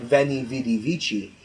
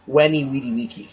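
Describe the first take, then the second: First: The first word begins with a v sound. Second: The first word begins with a w sound. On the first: This is the church Latin pronunciation. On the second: This is the classical Latin pronunciation. "classical Latin, which the same thing would be pronounced"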